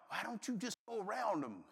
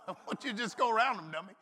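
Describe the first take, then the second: First: Soft, laughing memory of a gentle nudge; remembered wife's voice. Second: Fast, laughing version with dummy tacked on; teasing with a laugh. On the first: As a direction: recall her words quietly with a chuckle. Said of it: "I remembered my lovely wife's voice". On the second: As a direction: toss in dummy as a chuckling jab. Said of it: "there was a dummy added in on the end". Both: Retold or imitated.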